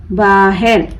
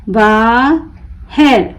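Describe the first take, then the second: First: Said in the usual way. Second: बाहर slowly split, long बा, pause, हर; broken into syllables. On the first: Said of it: "मिलाकर पढ़ें". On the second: Shown as a demonstration. Teacher breaking the word for learners, बा... हर with a gap. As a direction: pull बाहर apart into बा and हर. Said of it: "तोड़ तोड़ कर पढ़ूंगी".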